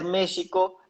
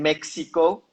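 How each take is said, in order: First: It is said in the original native way. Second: It is said with an American English accent. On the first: This is how the name should properly be said. "se debería pronunciar México" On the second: This is how people in the United States say it. "en Estados Unidos le dicen México"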